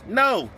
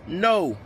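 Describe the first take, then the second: First: The word is said warmly, with a smile. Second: The word is said plainly, without a smile. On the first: "With a smiley face" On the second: "Say it with me"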